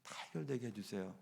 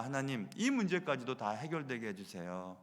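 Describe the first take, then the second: First: "다 해결되게 해주세요" repeated much softer and lower, dying away; softer repeated plea, trailing off; fading prayer. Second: Softer, lower pleading prayer; quiet imitated prayer to God; quoted prayer. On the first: Retold or imitated. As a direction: let "다 해결되게 해주세요" fade almost to a hush. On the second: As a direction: pray it softly, a little lower. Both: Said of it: "하나님 앞에 많이 기도합니다".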